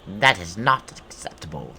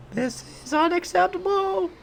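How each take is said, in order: First: Loud put-on monster objection; indignant goblin boss. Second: Extremely high falsetto creature wail; screechy goblin outrage. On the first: Streamer voicing the boss refusing an intruder, indignant goblin voice. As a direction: object loudly as a hammed-up goblin. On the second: Pretend. Streamer voicing outraged goblin boss, very high put-on screech.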